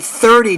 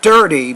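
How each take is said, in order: First: The word begins with a th sound. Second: The word begins with a d sound. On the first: The speaker calls it right. "So you say thirty" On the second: The speaker calls it wrong. "not dirty"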